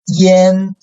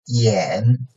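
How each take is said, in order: First: The pitch stays high and level. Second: The pitch dips low, then rises slightly.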